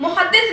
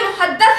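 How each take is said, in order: First: The vowel after the d is i. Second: The vowel after the d is a. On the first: The speaker calls it wrong. "दाल की जेर के साथ मुहद्दिस नहीं" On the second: The speaker calls it right. "बल्कि मुहद्दस है, दाल की जबर के साथ"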